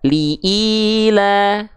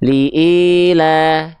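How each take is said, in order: First: The i vowel sounds full and clear. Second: The i vowel sounds flat and muffled. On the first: The speaker calls it right. "sempurnakan dengan cara angkat tengah lidah kita" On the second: The speaker calls it wrong. "banyak di antara kita melafalkan harokat kasroh itu nggak jelas. Contoh"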